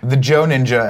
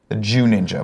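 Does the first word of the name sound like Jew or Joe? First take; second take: Joe; Jew. First: The first word rhymes with 'go'. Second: The first word rhymes with 'too'. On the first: The speaker calls it wrong. "has corrected me" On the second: The speaker calls it right.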